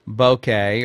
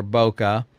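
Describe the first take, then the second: First: "bokeh" pronounced to rhyme with okay; bokeh as BOH-kay. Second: "bokeh" pronounced BOH-kuh, unstressed last vowel. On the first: Teacher explaining aperture, offers "bokeh" as BOH-kay. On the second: Teacher explaining aperture, adds alternative "bokeh" as BOH-kuh. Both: Shown as a demonstration. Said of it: "It's pronounced bokeh or bokeh".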